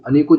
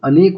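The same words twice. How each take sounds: First: अनेकों said as the wrong plural with a nasal -on ending; wrong form anekon. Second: अनेक said slowly and clearly with no -on ending; correct form anek. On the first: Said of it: "अनेकों जैसी कोई चीज़ नहीं होती है". (गलत रूप अनेकों, नासिक ओं के साथ) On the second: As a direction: stress अनेक as the right word, a bit slower. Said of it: "अनेक अपने आप में खुद ही प्लूरल होता है". (सही रूप अनेक, धीरे और साफ़) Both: Shown as a demonstration.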